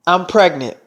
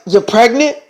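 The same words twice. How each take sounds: First: Said in the usual way. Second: Mildly startled question; a touch of incredulity; surprised echo. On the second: Acted. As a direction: echo the news in disbelief. Team echoes the news, startled.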